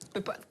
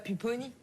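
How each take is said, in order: First: The word is cut short, final vowel dropped. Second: The word ends with its full final vowel. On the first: The speaker calls it right. "il faut pas prononcer la fin des mots" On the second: The speaker calls it wrong. "tu dis pas"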